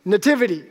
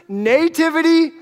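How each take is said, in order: First: "nativity" said nuh-TIV-ity, falling at the end; later accent in nativity. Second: "Nativity" said NAY-tivity, pitched up; Nativity as higher NAY-tiv-i-ty; long NAY in nativity. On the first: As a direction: reduce the first vowel of "nativity", stress TIV. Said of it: "She puts the accent later". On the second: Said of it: "I put the accent on the nay". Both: Shown as a demonstration.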